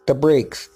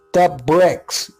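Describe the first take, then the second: First: "brakes" said in error for bricks; mispronounced word. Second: "bricks" with a short i; corrected word. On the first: Narrator fumbling the word for bricks, "brakes" slipped out. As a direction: stumble on "brakes", with a long vowel. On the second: Narrator correcting himself after saying brakes, "bricks" with short i. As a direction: land on "bricks", short vowel, correcting the slip. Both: Real, not acted. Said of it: "excuse me".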